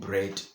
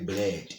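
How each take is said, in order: First: The word is said with an R sound. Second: The word is said with an L sound. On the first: "instead of saying bread" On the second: "sometimes you say bled"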